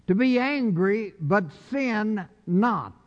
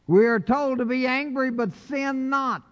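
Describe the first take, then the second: First: "To be angry" then a slow, deliberate "but sin not" with weight on "sin"; slow it down and lean on "sin"; slow stressed repeat. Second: "We are told to be angry" lifted high and firm, "but sin not" dropped; emphatic first reading. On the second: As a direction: preach the verse out, rising on the first half. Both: Shown as a demonstration.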